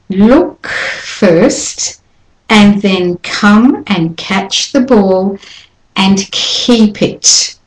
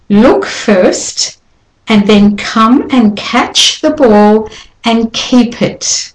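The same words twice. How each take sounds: First: The puffs of air are strongly exaggerated. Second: The puffs of air are natural and moderate. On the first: "I'll overdo the first time" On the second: "And now normally, but still with air release"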